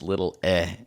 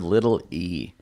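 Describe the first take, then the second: First: The final vowel is a short throaty 'eh'. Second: The final vowel is a long 'ee' sound. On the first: The speaker calls it right. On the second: The speaker calls it wrong.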